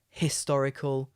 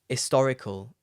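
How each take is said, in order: First: The h at the start is pronounced. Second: The h at the start is dropped. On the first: "You can say a historical" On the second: "often I don't pronounce the h. I just say historical"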